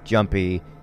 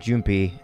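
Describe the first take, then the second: First: The first vowel sounds like 'uh', English style. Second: The first vowel sounds like 'oo', Japanese style. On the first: "the U wouldn't have been pronounced ja, as in jumpy" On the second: "in Japanese ... they would have probably pronounced it as jumpy"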